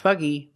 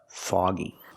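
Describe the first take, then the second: First: The first vowel is an 'uh' sound. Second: The first vowel is an 'aw' sound. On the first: The speaker calls it wrong. "We don't use the uh sound like cup and up" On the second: The speaker calls it right. "We use the aw sound like call"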